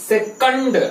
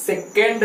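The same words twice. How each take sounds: First: सेकंड as "se-KUND", short uh in the second syllable; correct pronunciation. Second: सेकंड as "se-KEND", with an e in the second syllable; rejected pronunciation. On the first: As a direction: model सेकंड as "sek-und", not "sek-end". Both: Shown as a demonstration. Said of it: "सेकंड नहीं".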